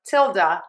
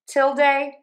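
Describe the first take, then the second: First: The last syllable ends in a weak schwa vowel. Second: The last syllable ends in a full 'day' vowel. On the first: "or da with the schwa" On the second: "you end with day, like day of the week"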